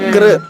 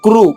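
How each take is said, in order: First: The syllable ends in a vocalic r sound. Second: The syllable ends in a rounded oo sound. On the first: The speaker calls it right. "పెదవుల్లో కదలిక రాకుండా కృష్ణ చెప్పాలి" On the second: The speaker calls it wrong. "పెదవులు ఎక్కడి వరకు వచ్చినాయి? ముందు వరకు వచ్చినాయి"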